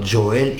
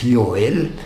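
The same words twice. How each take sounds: First: The name begins with a J sound. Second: The name begins with a Y sound. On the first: The speaker calls it wrong. "so it's not Joel" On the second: The speaker calls it right. "it is pronounced as Y"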